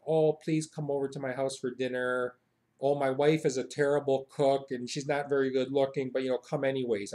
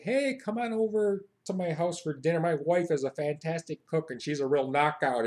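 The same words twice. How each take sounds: First: Understated humble host; mild, self-deprecating invitation; modest and humble. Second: Hearty, confident American invitation; boastful American. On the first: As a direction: play down everything as you invite them. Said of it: "known for being very modest and humble". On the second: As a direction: invite them over and show off. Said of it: "No, we say, like". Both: Acted.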